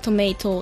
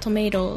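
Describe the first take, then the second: First: The middle t is clearly pronounced as t. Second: The middle t sounds like a soft flapped r. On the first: "イギリスはトメイトってあのT を発音する" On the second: "アメリカ英語だと"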